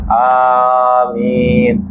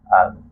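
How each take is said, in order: First: The word is said loudly and clearly. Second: The word is said softly and quietly. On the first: This follows the Shafi'i school's practice. "amin itu dikeraskan" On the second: This follows the Hanafi school's practice. "aminnya pelan, lirih"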